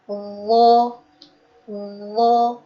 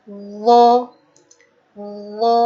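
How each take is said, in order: No difference in how they are said.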